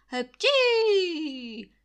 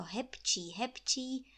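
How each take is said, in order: First: Big, high, loud sneeze. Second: Said in the usual way. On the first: A narrator's reading. Sick landlord sneezing loudly between his calls. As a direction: sneeze hard, falling at the end.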